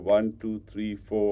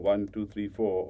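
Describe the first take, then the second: First: The counting is at a slow pace. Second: The counting is at a faster pace.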